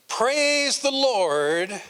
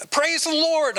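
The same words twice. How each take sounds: First: Praise the Lord. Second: High, loud excited shout of praise; desperate praise. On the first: Retold or imitated. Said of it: "He had said". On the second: Acted. Man on a stalled boat shouting the magic command, high and loud. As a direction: yell it to start the runaway boat.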